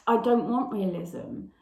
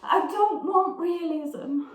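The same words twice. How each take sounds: First: Said in the usual way. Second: Slow, high-pitched theatrical protest; louder, drawn-out dramatic monologue delivery; Blanche. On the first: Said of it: "she's saying to Stanley". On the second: Acted. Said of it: "I will be Blanche".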